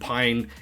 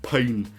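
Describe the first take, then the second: First: The vowel sounds like the one in fine. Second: The vowel sounds like the one in rain. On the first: The speaker calls it right. "call him Pine" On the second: The speaker calls it wrong. "instead of Pain"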